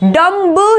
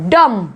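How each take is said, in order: First: A final b sound is pronounced. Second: The final b is silent. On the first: The speaker calls it wrong. "डम्ब नहीं बोलेंगे" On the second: The speaker calls it right. "बोलेंगे हम डम"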